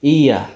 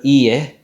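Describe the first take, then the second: First: Iya as "EE-uh"; English vowel ending. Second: Iye as "ee-yeh"; Turkish vowel ending. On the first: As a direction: drop the end of iya to "uh". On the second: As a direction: finish iye on a pure "eh". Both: Shown as a demonstration. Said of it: "instead of iye".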